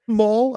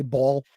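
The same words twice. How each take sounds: First: "mall" with an open aw vowel, mawl; Connecticut "mall". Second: "ball" with an open aw vowel, bawl; Connecticut "ball". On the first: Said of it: "mall, I say ball instead". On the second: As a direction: say "ball" like a New Yorker. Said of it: "I say ball". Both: Shown as a demonstration.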